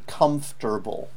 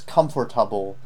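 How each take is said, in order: First: The middle is said as a short 'fter'. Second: The middle is said as a full 'fort'. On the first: The speaker calls it right. "It should be comfortable" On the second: The speaker calls it wrong. "What I heard was comfortable"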